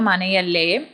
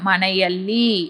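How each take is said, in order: First: The word ends with a -lle sound. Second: The word ends with a clear -lli sound. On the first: This is how it is said in everyday speech. "பேச்சு வழக்குல மனையல்லே" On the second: This is the full standard form. "மனையல்லி அப்படின்றதான்"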